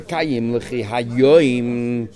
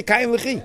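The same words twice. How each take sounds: First: Slow, with hayoim drawn out and leaned on; stress on hayoim. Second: Said in the usual way. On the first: Shown as a demonstration. Teacher slowly stressing hayoim to show it is redundant. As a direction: hayoim stretched slowly and weighted to show it is the extra word. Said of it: "the word hayoim is redundant". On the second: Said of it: "You just say".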